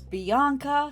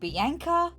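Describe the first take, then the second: First: The name is said a non-Australian way. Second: The name is said the Australian way. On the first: This is how the character's name is probably meant. "I have a feeling she would be pronounced as Bianca" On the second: This is how the name is said locally. "In Australia, we would pronounce it Bianca"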